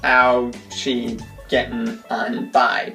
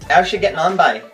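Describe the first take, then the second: First: The words are said separately, one at a time. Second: The words are run together into one quick word. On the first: The speaker calls it wrong. "not how she getting on by" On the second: The speaker calls it right. "All one word, ... just smash it all together and just blurt it out"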